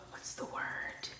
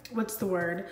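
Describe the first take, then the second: First: Breathy under-the-breath question; whispered. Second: Said in the usual way. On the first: Real, not acted. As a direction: whisper it to yourself. Repeats the question to herself.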